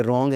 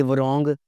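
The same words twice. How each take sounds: First: रॉन्ग starting straight on r; silent W. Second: वरोंग with the w sounded; mispronounced W. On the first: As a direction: drop the w in रॉन्ग. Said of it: "ये रॉन्ग है". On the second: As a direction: say वरोंग as wuh-rong. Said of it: "ये वरोंग नहीं बोलना". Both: Shown as a demonstration.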